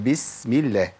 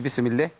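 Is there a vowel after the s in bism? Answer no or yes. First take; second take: no; yes. First: The s sound is held with no following vowel. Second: The s sound is followed by a short vowel. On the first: The speaker calls it right. "هي بسم الله" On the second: The speaker calls it wrong. "مفيش بسم الله"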